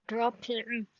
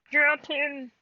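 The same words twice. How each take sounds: First: Said in the usual way. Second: Firm, much louder second command; louder repeat. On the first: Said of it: "repeated command". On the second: Real, not acted. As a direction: raise the voice to make it stick. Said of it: "repeated louder".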